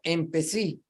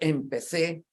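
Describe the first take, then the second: First: The word ends with an 'ee' vowel. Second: The word ends with an 'eh' vowel. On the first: This is the local dialect form. "la terminación en i en lugar de e" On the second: This is the standard form, not heard locally. "No se oye, por tanto, empecé"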